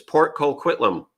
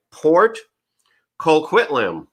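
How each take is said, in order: First: "Port Colquitlam" run together like a local; casual local "Port Colquitlam", joined up and falling; local pronunciation. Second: "Port ... Colquitlam" read carefully in two separate parts; "Port" raised, a clear gap before "Colquitlam"; careful pronunciation. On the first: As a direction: say "Port Colquitlam" as one name, no pause. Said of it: "if you say it like a local". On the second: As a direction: say "Port", pause, then "Colquitlam". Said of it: "so I say it right". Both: Shown as a demonstration.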